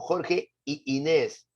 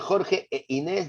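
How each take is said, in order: First: The joining word is said as 'y'. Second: The joining word is said as 'e'. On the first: The speaker calls it wrong. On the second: The speaker calls it right. "En vez de decir"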